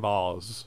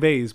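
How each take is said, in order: First: The word is said in a fancy, posh way. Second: The word is said in a plain, everyday way. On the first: The speaker is trying to sound fancy. "if I'm trying to be fancy, I say vase" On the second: This is the speaker's natural way of saying it. "Naturally, I say vase"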